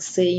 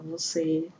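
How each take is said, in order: First: The word is shortened to one syllable. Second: The word is said in full, two syllables. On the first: Casual speech among friends. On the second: Correct, formal speech.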